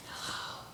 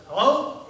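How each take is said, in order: First: Hushed, voiceless phone answer; child's whisper. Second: High, loud, rising phone hello; puzzled loud hello. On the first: Kid answers the phone to a stranger, whispering. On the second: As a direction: call down the line, questioning. Man on the line calls out. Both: Acted.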